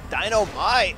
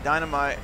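First: "Dynamite" stretched out syllable by syllable with a swooping tune; drawn-out exclamation. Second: Said in the usual way. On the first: Real, not acted. Player savouring "Dynamite" on the repeat, drawn-out exclamation. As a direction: draw out "Dynamite" like a catchphrase, each beat separate.

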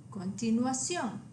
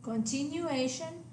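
First: Continuación ending in a stressed SYON; Spanish continuación, stress on the final o; Spanish pronunciation. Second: Continuation ending in AY-shun; English continuation, stress on A; English pronunciation. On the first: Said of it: "accent on the O". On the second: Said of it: "the English word". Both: Shown as a demonstration.

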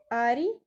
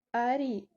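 First: Арі with the stress on the last syllable і; stress on final i. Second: Арі repeated with the stress on the і; stress on final i. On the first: Teacher shows the stress on the і of Арі. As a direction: push the weight onto the і of Арі. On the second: Teacher repeats Арі, stressing the final і. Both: Shown as a demonstration. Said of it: "наголос ставимо на і".

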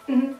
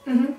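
No difference in how they are said.

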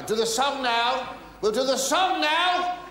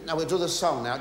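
First: Higher, slower, spelled-out repeat; raised repeat. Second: Said in the usual way. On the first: Pretend. Comedian repeating to the deaf pianist, higher and slower. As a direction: say it again so she hears.

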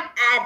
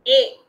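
First: "A" as the phonic vowel of apple; short A sound. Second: "A" louder, pronounced "ay" as in nail; long A sound. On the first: Teacher warning pupils off the wrong sound, short "A" as in apple. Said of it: "It is not A there". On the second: Teacher answering her own question to pupils, louder long "A", "ay". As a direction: give "A" firmly as the letter's name, "ay". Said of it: "the sound of A changes to". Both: Shown as a demonstration.

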